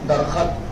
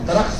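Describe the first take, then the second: First: A vowel splits the final two consonants. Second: The final two consonants are joined directly. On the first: The speaker calls it wrong. "दरखत गलत है" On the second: The speaker calls it right. "दरख्त सही है"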